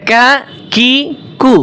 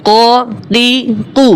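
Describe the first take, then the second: First: কা কি কু with a thin k; clean, spaced কা কি কু; light kaf. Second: Emphatic, spaced ক তি কু; heavy qaf. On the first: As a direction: separate কা কি কু, each light. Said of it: "পাতলা". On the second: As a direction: separate ক তি কু, each heavy. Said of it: "আর এটা মোটা". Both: Shown as a demonstration.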